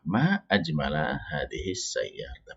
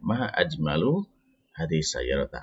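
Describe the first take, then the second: First: The second word ends with an 'a' vowel. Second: The second word ends with a 'u' vowel. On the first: It exclaims how beautiful the car is. "kata ajmala di sini dengan nasab ya, dengan fathah" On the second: It asks what is most beautiful about the car. "Kalau ini misalkan dibaca marfu"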